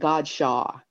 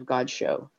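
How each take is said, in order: First: The name has a Southern American pronunciation. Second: The name has a French-style pronunciation. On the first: This is how locals in the South say it. "They called it Godshaw in the South" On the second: This is how the family said it. "we always had the French pronunciation"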